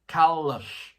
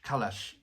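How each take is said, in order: First: The second syllable sounds like 'lush'. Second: The second syllable sounds like 'lash'. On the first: The speaker calls it right. "Lush. Kalush. There you go" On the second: The speaker calls it wrong. "It's not [name]"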